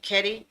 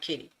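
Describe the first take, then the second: First: The first syllable sounds like 'ket'. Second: The first syllable sounds like 'kit'. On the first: The speaker calls it right. "correction is Ketty" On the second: The speaker calls it wrong. "I pronounced it wrong. I said kitty"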